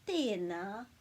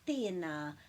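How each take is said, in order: First: The vowels are drawn out and long. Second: The vowels are drawn out and long.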